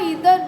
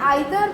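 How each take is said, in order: First: The first vowel sounds like 'ee'. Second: The first vowel sounds like 'eye'. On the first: "ଇଦର ବି କହିପାରିବ" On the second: "ତମେ ଆଇଦର ବି କହିପାରିବ"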